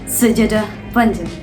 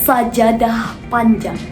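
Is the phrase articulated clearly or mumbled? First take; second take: mumbled; clear. First: The sounds are slurred and not clearly articulated. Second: Each sound is articulated clearly and distinctly. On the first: The speaker calls it wrong. "Bukan sajadah panjang" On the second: The speaker calls it right. "Kita contohkan saat membaca judul puisi ya"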